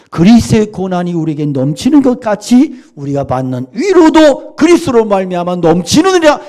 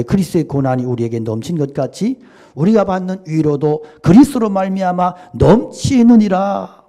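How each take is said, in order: First: Much higher and louder, ringing out the verse; a preacher booming scripture to the congregation; fervent proclamation. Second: Said in the usual way. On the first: Real, not acted. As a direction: proclaim the verse at full force.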